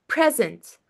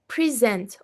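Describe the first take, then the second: First: "present" stressed at the start, PRES-ent; stress on first syllable. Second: "present" stressed on the end, pre-SENT; stress on second syllable. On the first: Teacher showing word stress, "present" stressed on its first syllable. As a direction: say "present" as PREZ-ent, weight up front. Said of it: "these are different verbs". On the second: Teacher showing word stress, "present" stressed on its second syllable. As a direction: say "present" as the verb, pri-ZENT. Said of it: "word stress or sentence stress". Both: Shown as a demonstration.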